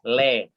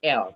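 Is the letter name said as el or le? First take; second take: le; el. First: The vowel comes after the consonant: le. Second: The vowel comes before the consonant: el. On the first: The speaker calls it right. "tapi le" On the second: The speaker calls it wrong. "bukan L"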